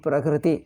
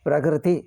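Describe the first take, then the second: No difference in how they are said.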